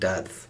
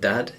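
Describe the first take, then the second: First: The final D is soft, like th. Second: The final D is a hard stop. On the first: The speaker calls it right. "more like dadth, almost like a th" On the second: The speaker calls it wrong. "it's not hard D, it's not dad"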